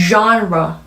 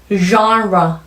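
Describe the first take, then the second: No difference in how they are said.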